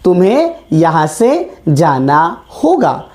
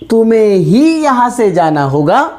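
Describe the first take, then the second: First: Said in the usual way. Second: ही pushed with a lift, तुम्हें ही stressed. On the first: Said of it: "लेकिन अगर इस वाक्य को मैंने कहा". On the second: Shown as a demonstration. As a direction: lean on the word ही. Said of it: "जब मैंने ही शब्द का प्रयोग किया तो इसने किस पर जोर दिया". ("ही" शब्द पर ज़ोर देकर)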